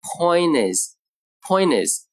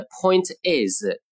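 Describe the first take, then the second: First: "point is" run together, t turned into n; linked point is. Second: "point is" with the t clearly released; unlinked point is. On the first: Teacher demonstrating assimilation, "point is" linked with n for t. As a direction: say "point is" slowly as "poin-nis", no t. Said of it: "就读成". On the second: Teacher showing the written form, "point is" with a full t. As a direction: say "point is" as two separate words, t sounded. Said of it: "而是发成n的音". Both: Shown as a demonstration.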